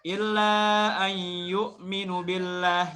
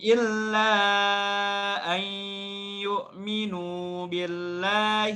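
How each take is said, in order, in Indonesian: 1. Vokal akhir yu'minu dibaca pendek. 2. Vokal akhir yu'minu dibaca panjang.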